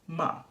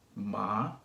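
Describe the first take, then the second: First: The pitch falls from high to low. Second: The pitch rises from middle to high. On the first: "the fourth tone goes from high to low" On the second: "So it goes from middle to high"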